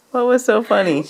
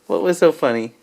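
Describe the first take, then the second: First: Asked through laughter; laughing. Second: Said in the usual way. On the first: Real, not acted. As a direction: laugh while you ask it. Repeated while laughing.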